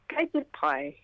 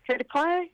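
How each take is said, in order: First: It sounds like a statement, falling at the end. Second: It sounds like a question, rising at the end.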